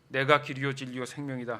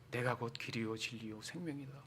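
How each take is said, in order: First: The voice is thin and high-pitched. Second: The voice is deep and low-pitched. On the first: The speaker does not sound impressive. "목소리도 좀 얇고" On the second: The speaker sounds impressive and worthy of respect. "베이스 톤으로 이렇게 얘기하면 멋있는데"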